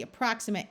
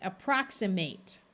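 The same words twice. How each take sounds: First: Approximate with a weak "mut" ending; adjective form. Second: Approximate with a full "mate" ending; verb form. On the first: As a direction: schwa the final syllable of approximate. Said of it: "is the adjective form". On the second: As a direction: keep the long A at the end of approximate. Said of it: "If you want to make it a verb". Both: Shown as a demonstration.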